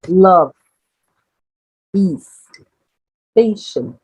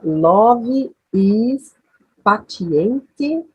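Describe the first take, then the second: First: Patient ends cleanly on the final t sound. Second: An extra vowel sound is added after patient. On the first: The speaker calls it right. "Olha só" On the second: The speaker calls it wrong. "E ia ler assim"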